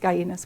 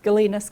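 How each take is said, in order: First: The name is said with the Cuban pronunciation. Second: The name is said without the Cuban pronunciation. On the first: "having spent years making the film in Cuba, I always pronounce it Gainas" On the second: "but you can say either in the U S"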